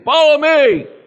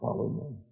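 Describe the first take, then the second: First: It is said loudly and forcefully. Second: It is said quietly and gently.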